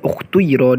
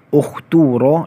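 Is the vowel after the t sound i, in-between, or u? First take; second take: in-between; u. First: The vowel after the t is between u and i. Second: The vowel after the t is u. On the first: "harakat di antara dhammah dan kasrah" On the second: "Yang pertama, dhammah"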